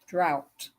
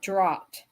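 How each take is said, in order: First: The vowel rhymes with 'pout'. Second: The vowel does not rhyme with 'pout'. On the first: The speaker calls it right. "drop like pout" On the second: The speaker calls it wrong. "not drought"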